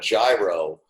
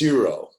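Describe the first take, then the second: First: The word begins with a J sound. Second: The word begins with a Y-like sound. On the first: The speaker calls it wrong. "it's so funny when they when people call it a gyro" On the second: The speaker calls it right. "It's Euro"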